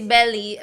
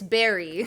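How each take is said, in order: First: The middle consonant sounds like an L. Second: The middle consonant sounds like an R. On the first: This is how it is said in Japanese. "in Japanese they say belly" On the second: This is how it is said in English. "but in English it's berry"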